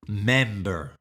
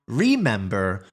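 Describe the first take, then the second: First: The first syllable is dropped. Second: The first syllable is fully pronounced. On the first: "she doesn't really pronounce the R E at the beginning" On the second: "So not remember"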